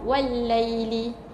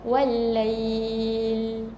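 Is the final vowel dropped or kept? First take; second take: kept; dropped. First: The word ends with a short final vowel. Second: The word ends on a lengthened syllable, no vowel. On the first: The reading continues to the next word. "kalau sambung" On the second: The reading stops on this word. "kalau kita berhentikan"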